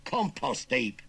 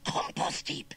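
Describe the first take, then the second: First: Loud, higher Cockney retort; blunt correction. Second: Husky, unvoiced-edged dread; muttered. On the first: Acted. Nephew explaining where uncle will land, blunt. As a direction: spell out the threat loudly. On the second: Uncle dreading the threat while shovelling, husky mutter. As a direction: rasp it out anxiously. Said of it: "he muttered, shoveling even more frantically".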